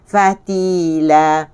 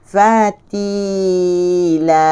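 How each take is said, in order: First: The word is said quickly. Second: The word is said slowly. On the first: "Kalau kita sebut laju" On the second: "kita baca perlahan-lahan kan?"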